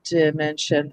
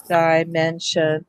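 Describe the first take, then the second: First: "dimension" starting with a short "di", as in "did"; lower-pitched "dimension" with a short first vowel; short-I pronunciation. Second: "dimension" slowly, starting like "die"; slow "dimension" with an "eye" vowel first; long-I pronunciation. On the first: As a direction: say "dimension" low, as dih-men-shun. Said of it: "We should either try di or die". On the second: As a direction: sound out "dimension" as die-men-shun, unhurried. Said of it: "I say dimension". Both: Shown as a demonstration.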